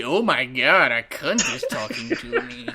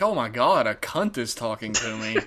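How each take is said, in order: First: Imitated English accent. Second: Lightly put-on English accent, dropping lower; low-key mimicry of the actor's English accent; imitated English accent. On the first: Actor meeting podcaster, exaggerated mock English accent. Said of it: "that's his accent". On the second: Actor meeting podcaster, lightly imitated English accent. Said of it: "Is he gonna talk like that".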